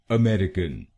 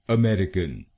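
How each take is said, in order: Both takes have the same delivery.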